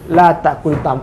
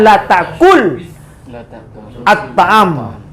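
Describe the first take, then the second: First: An i vowel links the verb to the next word. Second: The verb ends on a bare consonant. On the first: This is the form actually read aloud. "diberi baris yang paling ringan, yaitu baris kasrah" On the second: This is the underlying form before the two silent sounds meet.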